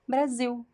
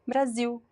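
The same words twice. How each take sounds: Both takes have the same delivery.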